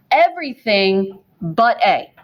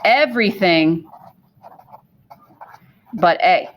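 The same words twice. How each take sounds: First: "but" leaned on with a falling tune; stress on but. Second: "Everything" then a long pause before "but A"; slow, paused emphasis. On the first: Teacher stressing "but" so students catch the exception. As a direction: press on "but" to make the point. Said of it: "listen to what I'm saying". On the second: Teacher repeating the key rule slowly, with a long pause. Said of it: "This is gonna be very important". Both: Shown as a demonstration.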